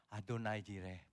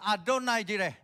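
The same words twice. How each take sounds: First: Low, soft Adonai Jireh; quietly. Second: High and loud, too forceful; loud proclamation. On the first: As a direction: say it gently, under the breath. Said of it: "pelan aja". (diucapkan pelan dan lembut) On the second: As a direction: shout Adonai Jireh like a challenge. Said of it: "gak usah kenceng-kenceng". (seruan keras dan tinggi) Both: Shown as a demonstration.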